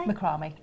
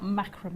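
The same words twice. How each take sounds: First: It is pronounced the non-American way. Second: It is pronounced the American way.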